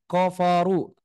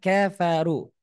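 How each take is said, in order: First: The first syllables are said thick and heavy. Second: The first syllables are said thin and light. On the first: The speaker calls it wrong. "jangan koforu seperti itu, jangan salah" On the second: The speaker calls it right. "Yang betul adalah kafaru"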